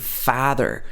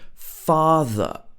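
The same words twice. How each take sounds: First: It is said with an American vowel. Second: It is said with a British 'ah' vowel. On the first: "like in the American accent" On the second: "the very British sound ah"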